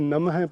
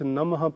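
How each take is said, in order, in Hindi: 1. यह आम पंजाबी तरीके से बोला जाता है। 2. यह आम हिंदी तरीके से बोला जाता है। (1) "ਇਹਨੂੰ ਵੈਸੇ ਅਸੀਂ ਨਮः ਪੜ੍ਹਦੇ ਹਾਂ" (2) "ਹਿੰਦੀ ਵਿੱਚ ਨਮः ਪੜ੍ਹਿਆ ਜਾਂਦਾ ਹੈ"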